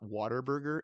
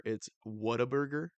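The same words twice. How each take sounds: First: "Whataburger" said like water, as a southern "water burger"; "Whataburger" with a wide water vowel, the mistaken way; wrong pronunciation. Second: "Whataburger" said as the locals say it, with a rising end; "Whataburger" corrected, ending on a questioning rise; correct pronunciation. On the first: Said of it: "it's not Whataburger, it's Whataburger". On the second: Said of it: "it's not Whataburger". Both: Shown as a demonstration.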